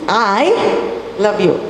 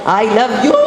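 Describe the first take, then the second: First: The stress falls on the word I. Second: The stress falls on the word you. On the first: Only this person loves you, nobody else. "It is I who loves you, nobody else" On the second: It is absurd that this particular person would be loved. "Are you mad? Why will I love you of all the people?"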